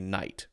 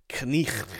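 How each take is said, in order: First: It is said with the current, everyday pronunciation. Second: It is said with the old, outdated pronunciation. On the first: This is how the word is said today. The speaker calls it right. "Now we just say knight" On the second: This is how the word was said long ago. The speaker calls it wrong. "Nobody says knicht"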